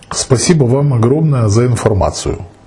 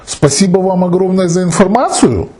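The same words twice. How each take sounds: First: It is said as a plain statement. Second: It is said with question intonation.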